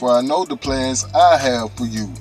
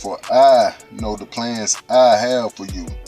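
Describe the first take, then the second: First: The word 'I' has no special stress. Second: The word 'I' is given extra stress.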